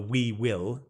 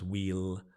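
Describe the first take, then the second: First: It is said as two separate full words. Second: It is said as one syllable, like wheel. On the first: "the we will normally becomes we'll" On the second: "the same pronunciation as in a wheel on the car"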